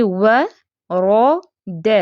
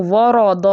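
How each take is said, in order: First: ورود drawn out very slowly, only را heavy; ورود with a heavy را between thin letters; correct recitation. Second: ورود with all three letters made heavy; ورود, every letter thickened; wrong way demo. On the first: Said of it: "تو کیسے پڑھیں گے". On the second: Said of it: "نہیں، ایسے نہیں کرنا". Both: Shown as a demonstration.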